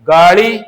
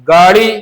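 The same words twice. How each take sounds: The two takes are said the same way.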